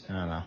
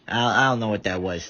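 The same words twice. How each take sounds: First: Low, quiet, drained mumble; sad tired voice. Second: Said in the usual way. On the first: Shown as a demonstration. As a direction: let it sag out, worn out. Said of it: "That was just my sad, tired voice". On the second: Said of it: "That was just my".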